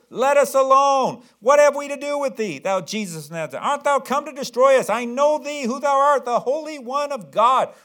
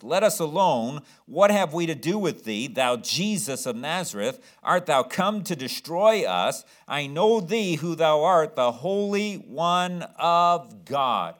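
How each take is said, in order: First: High, loud shrieking demon voice; demon screaming. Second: Lightly voiced demon, slow and firm; a hint of the demon confronting Jesus; demon's words read aloud. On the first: Acted. Possessed man screaming at Jesus in the synagogue, shrieking. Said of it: "screams at the top of his lungs". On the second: Preacher reading the demon's words to Jesus, slow and firm. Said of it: "This is what the demon says to Jesus".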